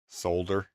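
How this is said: It is said with a British pronunciation. "when you say it the English way"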